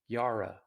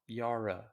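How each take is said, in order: First: The final vowel is reduced to a weak uh. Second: The final vowel is reduced to a weak uh.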